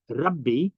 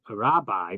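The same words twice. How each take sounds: First: The word has its original, non-English pronunciation. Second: The word has its usual English pronunciation. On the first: The speaker calls it right. "it's really" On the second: The speaker calls it wrong. "the way we say it in English"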